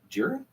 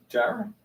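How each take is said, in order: First: Jira said "JEER-uh"; first pronunciation option. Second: Jira said "JAI-ruh"; alternative pronunciation. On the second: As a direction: say Jira with a long i, rhyming with Myra. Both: Shown as a demonstration. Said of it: "Is it Jira or Jira".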